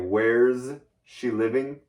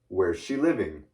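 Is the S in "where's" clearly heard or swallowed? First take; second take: clear; swallowed. First: The S in where's is clearly pronounced. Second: The S in where's is almost swallowed. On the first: "You can say" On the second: "at regular conversational speed, it sounds like"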